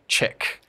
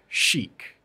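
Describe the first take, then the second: First: It starts with a ch sound and a short i. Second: It starts with an sh sound and a long ee. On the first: "Just naturally in English, you'd be like chick" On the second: "so like chic"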